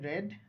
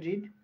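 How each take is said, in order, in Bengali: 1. স্বরধ্বনিটি হ্রস্ব e ধ্বনি। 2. স্বরধ্বনিটি দীর্ঘ ee ধ্বনি। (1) "আর বাকি দুই ফর্মে রেড" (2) "প্রেজেন্ট ফর্মে অর্থাৎ বেস ফর্মে রিড"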